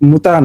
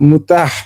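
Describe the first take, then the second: First: The word ends in a plain vowel. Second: The word ends with a breathy h. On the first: The speaker calls it wrong. "উচ্চারণটা হচ্ছে মুতা না" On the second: The speaker calls it right. "আসলে উচ্চারণটা হচ্ছে"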